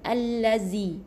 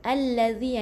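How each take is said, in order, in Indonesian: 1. Konsonan tengahnya bunyi 'z' yang berdengung. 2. Konsonan tengahnya bunyi 'dh' yang lembut. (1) "Kita mungkin membaca zai ... Salah eh?" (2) "jadi macam ni nak sebut, lidah mesti keluarkan eh"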